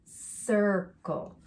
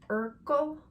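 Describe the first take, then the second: First: The word begins with a soft S sound. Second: The word begins with a hard K sound. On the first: The speaker calls it right. "flip that sound" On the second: The speaker calls it wrong. "with a hard C sound"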